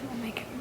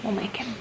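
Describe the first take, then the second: First: Much softer, near-whispered repeat; hushed aside. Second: Said in the usual way. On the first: Real, not acted. Vlogger on getting shy husband into videos, hushed aside. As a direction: say it under the breath, almost whispered.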